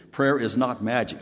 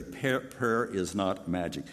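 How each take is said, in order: First: Said in the usual way. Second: "Prayer, prayer is not magic" spoken slowly, word by word; slow and clear. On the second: Shown as a demonstration. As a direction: spell it out slowly for the congregation. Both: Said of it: "Let me say it very clearly".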